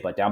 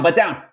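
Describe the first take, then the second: First: It is said with milder urgency. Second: It is said with the strongest urgency.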